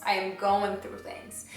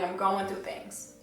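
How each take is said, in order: First: "I am" stressed, slowed, each word leaned on. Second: Said in the usual way. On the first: Shown as a demonstration. To viewers, insisting on her teenage struggle, stress on "I". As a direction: lean hard on the word "I" in "I am going through things".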